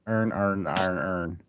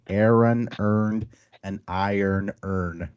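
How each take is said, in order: First: It is said in a clipped Baltimore accent. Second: It is said slowly with careful, distinct words.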